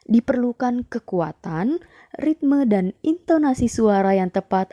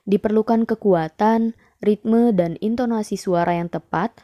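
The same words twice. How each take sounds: First: It sounds like someone telling a fairy tale. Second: It sounds like plain speech, not storytelling. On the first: "Kok jadi terkesan kayak dongeng ya?"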